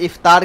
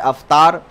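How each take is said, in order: First: The word begins with an 'i' vowel. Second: The word begins with an 'a' vowel. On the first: The speaker calls it right. "इफ्तार के बजाय" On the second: The speaker calls it wrong.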